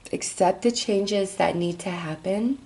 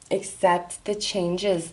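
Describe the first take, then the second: First: Said in the usual way. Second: Words stretched through a yawn. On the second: Real, not acted. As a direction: say it mid-yawn. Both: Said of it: "I, I yawned".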